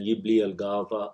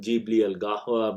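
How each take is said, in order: First: The first word begins with a Y sound. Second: The first word begins with a J sound. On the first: This is the Gulf dialect form. "the sound change from Jim to Ya" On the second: This is the standard form. "would be the standard"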